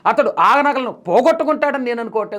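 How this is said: The stress is on the word for losing.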